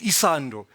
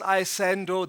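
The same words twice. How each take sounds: First: It is said with a township accent. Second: It is said with a modern suburban accent. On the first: "the township pronunciation of it" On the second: "That's the uh, modern suburban pronunciation"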